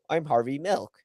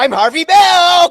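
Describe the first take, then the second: First: It is said in a plain, ordinary voice. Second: It is said in an exaggerated, put-on voice. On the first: This is how the real man sounded. The speaker calls it right. "Harvey Milk sounds like this" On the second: This is how the actor portrayed him. The speaker calls it wrong. "He doesn't sound like this. ... which is how Sean Penn played him"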